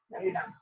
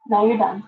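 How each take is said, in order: First: High, hushed little warning; high soft warning. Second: Firm, louder, at normal pitch; firm end. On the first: Owner quietly warning her biting parrot, high and soft. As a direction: say it up high and quiet, half-coaxing. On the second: Owner firmly ending the parrot's biting spree. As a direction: put your foot down with the bird. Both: Real, not acted.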